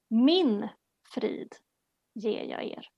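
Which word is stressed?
Min. The stress is on the word 'Min'.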